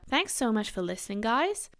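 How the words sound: It is said in a somewhat Australian accent.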